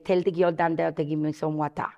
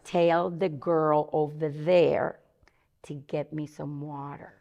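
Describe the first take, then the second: First: It is said in a Belizean Creole accent. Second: It is said in a standard English accent.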